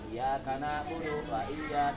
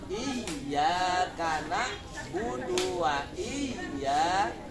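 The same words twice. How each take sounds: First: The y sound in iyyaka is short and single. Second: The y sound in iyyaka is held and doubled. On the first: The speaker calls it wrong. "itu enggak boleh" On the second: The speaker calls it right. "Harus ditasydidkan"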